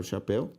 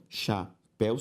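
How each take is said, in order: First: Said in the usual way. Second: "chapéu" split as cha, péu; syllable by syllable. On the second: Shown as a demonstration. Teacher separating the word for students, syllable by syllable. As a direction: pause inside "chapéu". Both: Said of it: "se eu separo chapéu".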